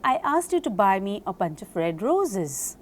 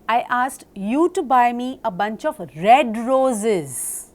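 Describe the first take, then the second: First: The word roses is stressed. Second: The word buy is stressed. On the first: "When I stress upon roses" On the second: "when I stress upon buy"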